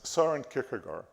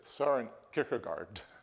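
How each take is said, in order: First: The name is said with a Danish pronunciation. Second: The name is said with an English pronunciation. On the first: "Not this Danish pronunciation" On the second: "that's how we pronounce it here"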